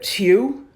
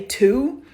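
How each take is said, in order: First: The vowel has a y-like glide added to it. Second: The vowel is plain, without a y-like glide. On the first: This is how people from the DMV area say it. "it's almost like you all put a Y to it" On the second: This is how the speaker's own region says it. "we say two"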